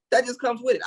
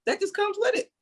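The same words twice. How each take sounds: First: Said in the usual way. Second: Much higher, rising, punchy take; high emphatic. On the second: Shown as a demonstration. Cohost hammering his point about the baby's mother, high and rising. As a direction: push it up high like it's obvious.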